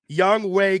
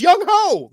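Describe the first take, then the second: First: The name ends in a 'way' sound. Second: The name ends in a 'ho' sound. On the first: The speaker calls it right. "I'm saying it right" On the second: The speaker calls it wrong. "Everyone else is saying it wrong"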